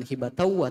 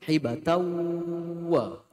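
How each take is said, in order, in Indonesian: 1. Bunyinya langsung masuk ke suku kata berikutnya. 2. Bunyinya ditahan sebelum suku kata berikutnya. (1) "jangan hibatawa" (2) "Sebelum wa-nya muncul ditahan"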